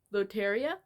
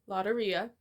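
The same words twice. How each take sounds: First: Loteria said "loh-teh-REE-uh", rising at the end; Spanish-style Loteria. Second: Lotteria said "LAH-duh-ree-uh", flat American r; anglicized Lotteria. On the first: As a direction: Loteria with a clear o and a tapped r. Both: Shown as a demonstration. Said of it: "There's a little accent mark".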